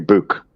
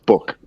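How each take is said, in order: First: The double-o vowel is said the local way. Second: The double-o vowel is said the general way. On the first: This is how people in the speaker's area say it. "like where I live, people will say book" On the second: This is how people everywhere else say it. "everywhere else it's book"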